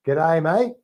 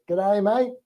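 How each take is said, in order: First: Teacher modelling an Aussie accent; Australian accent with rising end, for repeating. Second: Higher, rising Aussie chant like schoolkids; high-pitched mock Aussie echo; kids copying Australian accent. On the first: Shown as a demonstration. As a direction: demonstrate a broad Aussie greeting. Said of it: "say it in an Australian accent". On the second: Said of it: "all the kids say".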